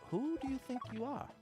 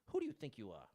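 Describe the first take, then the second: First: It is asked in a mild, curious tone. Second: It is asked in a hostile, confrontational tone. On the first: It is a genuine, softened question. "he tried to ask it inquisitively" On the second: It is an angry challenge. "rather than like"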